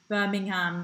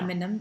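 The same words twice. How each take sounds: First: The last syllable sounds like the word ham. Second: The g sound in the middle is dropped. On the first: "they say ham, like the meat" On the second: "they miss out the G"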